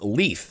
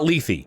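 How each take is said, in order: First: The name ends on a 'th' sound. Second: The name ends on an 'ee' sound. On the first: The speaker calls it right. "she pronounces her own name and it's Leith" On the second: The speaker calls it wrong. "I was pronouncing it like the Greek river of mythology"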